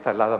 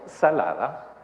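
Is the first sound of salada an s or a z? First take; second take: z; s. First: The word begins with a z-like sound. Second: The word begins with a plain s sound. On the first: "la S no la pronuncian como S, sino como Z" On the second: "En vez de decir que la comida quedó salada"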